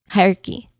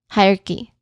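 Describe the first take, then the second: No difference in how they are said.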